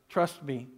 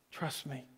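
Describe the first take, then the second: First: Softly spoken "Trust me.". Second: "Trust me." fading almost to nothing, much softer; near-silent trust me. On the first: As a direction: say "Trust me." as a gentle hush. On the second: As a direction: let "Trust me." die away to a breath. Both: Retold or imitated. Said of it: "he's whispering to you".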